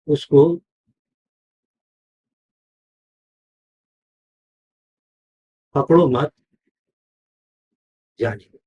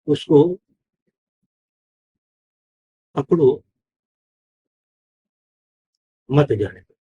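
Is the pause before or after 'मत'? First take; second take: after; before. First: The pause comes after 'मत'. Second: The pause comes before 'मत'.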